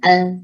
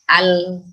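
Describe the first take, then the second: First: "al" with only the tongue tip; faulty tip-only "al"; wrong lam. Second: "al" with tongue edges on upper gums; correct lam. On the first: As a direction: say "al" using just the tip, incompletely. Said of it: "Nah, tidak ujung". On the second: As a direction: place the tongue sides for a full "al". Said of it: "bukan al". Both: Shown as a demonstration.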